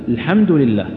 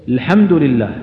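The two takes are said the same way.

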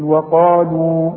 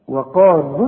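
First: The final long vowel is fully pronounced at a stop. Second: The final long vowel is dropped into the next word. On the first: The reader stops after the word. "لكن تثبت الواو اذا وقفنا" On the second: The word is joined to the following word. "واذا وصلنا ما عنديش نسقطها"

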